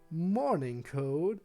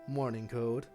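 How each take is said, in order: First: It is said in a higher, lighter voice. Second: It is said in a deeper voice.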